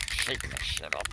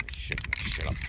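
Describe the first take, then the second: First: A deep, voiced repeat of the joke; low voiced. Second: A quick conspiratorial whisper. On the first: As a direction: say "Shaking the shit up" low and aloud, in a lightly put-on voice. Same words said aloud, low. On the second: Pretend. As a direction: whisper "Shaking the shit up" low, with no voice. Repeated line, first one whispered.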